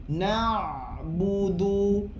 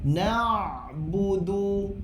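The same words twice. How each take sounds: The two takes are said the same way.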